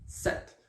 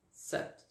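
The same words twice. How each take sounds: First: Sept said directly as "set"; sept, silent P. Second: Sept with the P pronounced before the T; sept, sounded P. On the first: Teacher giving pupils the first way, sept without P. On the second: Teacher giving pupils the second way, sept with P. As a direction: say sept as "sèpt", P and T both audible. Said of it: "en prononçant la lettre P". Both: Shown as a demonstration.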